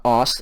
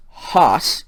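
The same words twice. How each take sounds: First: "os" starting on the bare vowel; unaspirated "os", the wrong form; no rough breathing. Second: "hos" opened with an audible h; aspirated "hos", the corrected form; rough breathing. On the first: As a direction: say os with no h at the front. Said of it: "so they're not os". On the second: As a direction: breathe an h onto the front of hos. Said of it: "the rough breathing mark on all of them". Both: Shown as a demonstration.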